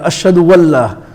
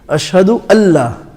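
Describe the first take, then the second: First: A w sound links into Allah. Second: Allah starts cleanly without a w sound. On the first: The speaker calls it wrong. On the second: The speaker calls it right.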